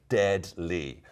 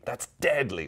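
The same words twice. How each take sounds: First: "deadly" very slow, as dead, then ly; broken into syllables. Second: Said in the usual way. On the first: Shown as a demonstration. Teacher spelling out the slang for viewers, "deadly" in slow syllables. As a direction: split "deadly" with a gap.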